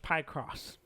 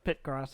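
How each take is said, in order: First: The first syllable has a long 'eye' vowel. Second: The first syllable has a short 'i' vowel.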